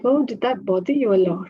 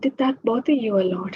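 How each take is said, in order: First: It sounds sarcastic and reactive, not empathetic. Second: It sounds caring and empathetic, matching the intention.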